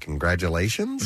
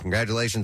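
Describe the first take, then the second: First: The voice rises at the end like a question. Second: The voice falls at the end.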